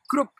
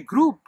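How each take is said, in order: First: The vowel sound is short. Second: The vowel sound is long. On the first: The speaker calls it wrong. "So it's not group" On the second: The speaker calls it right. "the long U sound"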